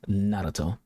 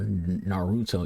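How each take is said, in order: First: The R is said like a soft D. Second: The R is said like an English R. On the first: The speaker calls it right. "it's Naruto. You pronounce that R kind of like a, like a little D sound" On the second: The speaker calls it wrong. "It's not"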